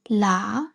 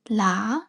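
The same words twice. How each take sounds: First: The tone is low and level. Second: The same.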